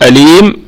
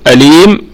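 First: The long vowel is held for two counts. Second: The long vowel is held for two counts.

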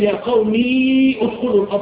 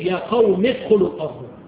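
First: The final ee of qawmi is pronounced. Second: The final ee of qawmi is dropped. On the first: The speaker calls it wrong. "ما ينفعش اقول" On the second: The speaker calls it right. "الياء راحت عشان النطق"

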